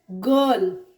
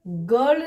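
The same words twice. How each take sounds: First: "गर्ल" low, long uh straight into l; British r-less girl. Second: "गर्ल" with an r before the l; wrong, R sounded. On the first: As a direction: drop the r from "गर्ल", stretch the vowel. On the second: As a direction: pronounce the r in "गर्ल". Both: Shown as a demonstration. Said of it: "गर्ल नहीं".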